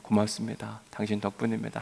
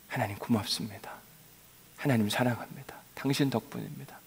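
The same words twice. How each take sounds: First: Softer, sincere thank-you; gentle thanks. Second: Whispered, much softer thanks to God; the longed-for words to God, whispered; whispered prayer. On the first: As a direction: say it softly to your neighbour. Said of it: "옆에 있는 분들에게 그렇게 이야기할게요". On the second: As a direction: breathe it like a private prayer. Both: Shown as a demonstration.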